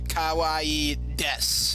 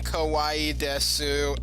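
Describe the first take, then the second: First: The final u sound of desu is silent. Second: The final u sound of desu is heard. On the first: The speaker calls it right. "the U is silent on des" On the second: The speaker calls it wrong. "for those who are saying kawaii desu, no, no"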